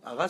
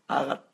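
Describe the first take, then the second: First: The word ends with an s sound. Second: The word ends with a soft t sound. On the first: The speaker calls it wrong. "Directement, ils disent aras" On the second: The speaker calls it right. "c'est de le prononcer arat, avec un léger à la fin"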